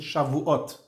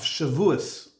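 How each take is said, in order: First: It is said in a Sephardic accent. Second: It is said in an Ashkenazi accent.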